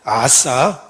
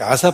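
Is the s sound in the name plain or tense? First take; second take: tense; plain. First: The s sound is tense and hard. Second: The s sound is plain and soft. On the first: "이렇게 발음하면 또 다르게 들리죠" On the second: "아사 발음하기 나름인데요"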